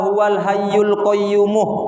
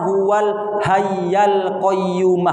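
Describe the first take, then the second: First: Both words end with a u vowel. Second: Both words end with an a vowel. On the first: The speaker calls it wrong. "Ada yang membaca" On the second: The speaker calls it right. "Yang paling benar dibaca"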